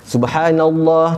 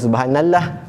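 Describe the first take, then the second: First: The l in Allah is pronounced thick and heavy. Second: The l in Allah is pronounced thin and light. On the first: The speaker calls it right. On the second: The speaker calls it wrong.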